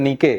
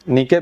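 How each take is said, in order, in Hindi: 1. शब्द का अंत k ध्वनि से होता है। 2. शब्द का अंत k ध्वनि से होता है।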